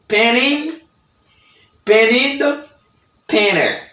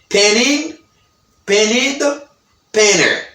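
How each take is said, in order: The two takes are said the same way.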